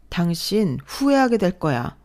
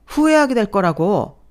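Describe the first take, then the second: First: Slow warning. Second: 후회하게 thrown back high, loud and scornful; mocking echo. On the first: Acted. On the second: Husband mocking his wife's threat, 후회하게 echoed high and loud. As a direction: sneer at her 후회하게 as a joke.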